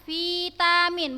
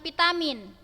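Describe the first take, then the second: First: The word begins with a V sound. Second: The word begins with a P sound. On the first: This is the standard form. The speaker calls it right. "Pakai V? Ya, betul ya" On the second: This is not the standard form. The speaker calls it wrong. "bukan vitamin"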